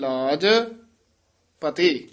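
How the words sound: A pause comes after the first word. The speaker calls it right. "ਰੱਖੋ ਮੇਰੀ ਲਾਜ ਇੱਥੇ ਠਮਕ ਲਾ ਦੇਣੀ ਹੈ"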